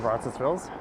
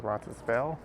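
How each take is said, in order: First: The final S sound is pronounced. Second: The final S sound is left off.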